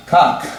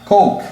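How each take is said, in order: First: Cock with a single short vowel; one vowel cock. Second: Coke raised high with a gliding ou vowel; double vowel coke. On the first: Teacher contrasting cock, single vowel. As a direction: keep cock to one sound. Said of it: "cock, um som". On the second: Teacher contrasting coke, gliding ou vowel. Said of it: "dois sons". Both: Shown as a demonstration.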